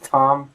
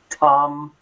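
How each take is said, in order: First: The word starts between a t and th. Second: The word starts with a plain t sound. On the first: The speaker calls it right. "something between the thumb and thumb" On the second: The speaker calls it wrong. "It's not my thumb"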